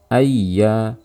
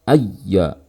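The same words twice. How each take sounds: First: The doubled y is pressed only lightly. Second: The doubled y is pressed very forcefully. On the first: The speaker calls it right. "tekanan ringan yang kita berikan pada ya sukun ai, kita tambahkan pada ya bertasydid" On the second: The speaker calls it wrong. "saat tekanan yang berlebihan yang dimasukkan ialah ayya"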